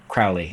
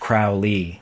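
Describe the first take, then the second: First: Only the first syllable is stressed. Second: Both syllables are stressed equally. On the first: This is the actual pronunciation, making the name a trochee. "instead of Crowley. It's stressed, unstressed" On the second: This is a hypothetical pronunciation that would make the name a spondee. "for Crowley to be a spondee, it would have to be pronounced Crowley"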